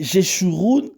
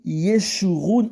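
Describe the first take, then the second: First: The name begins with a French J sound. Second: The name begins with a Y sound. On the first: "où c'est écrit Jeshurun" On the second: "c'est li Yeshurun en hébreu"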